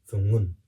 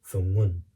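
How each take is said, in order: The two takes are said the same way.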